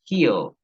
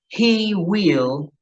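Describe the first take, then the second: First: Will is shortened and joined onto he. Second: Will is said as a separate full word. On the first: "diría he'll" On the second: "En vez de yo decir he will"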